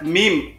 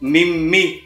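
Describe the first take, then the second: First: It is one syllable, like the letter mim. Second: It is two syllables with an ee vowel. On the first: The speaker calls it right. "ini dibaca meme ... seperti huruf hijaiyah meme" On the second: The speaker calls it wrong. "atau mimi"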